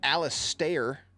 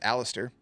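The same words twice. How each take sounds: First: The name is said in the show's pronunciation. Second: The name is said in the plain pronunciation. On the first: This is how the show said the name. The speaker calls it wrong. "as they said it" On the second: This is the ordinary way to say the name. The speaker calls it right. "instead of just Alistair"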